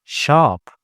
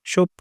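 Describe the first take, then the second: First: The vowel sounds like an open 'ah'. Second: The vowel sounds like a rounded 'oh'. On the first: The speaker calls it right. "ومحل shop" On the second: The speaker calls it wrong. "مش shop"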